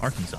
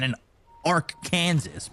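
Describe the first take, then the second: First: The ending is said like the word saw. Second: The ending is said like the word Kansas. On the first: "but we call it Arkansas" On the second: "a Kansas and an Arkansas"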